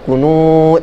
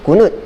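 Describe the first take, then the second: First: The vowel is drawn out long. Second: The vowel is held short. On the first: "Kalau kunut panjang" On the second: "kalau kunut pendek"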